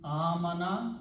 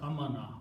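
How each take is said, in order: First: The first vowel is long. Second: The first vowel is short. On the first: It means to believe. "Two alifs are pronounced as a" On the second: It refers to peace or safety. "Aman is a peace or amana"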